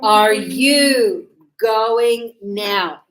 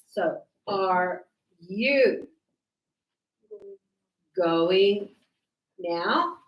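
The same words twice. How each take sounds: First: Are you going now spoken very slowly and louder, each word separate. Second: Are you going now drawn out slowly, with pauses between words; slow dictation. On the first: Teacher modelling the question slowly and loudly to students. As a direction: spell it out slowly for the class. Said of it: "Yes, it's the question". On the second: Teacher dictating the question slowly for students to write. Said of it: "it's the question". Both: Shown as a demonstration.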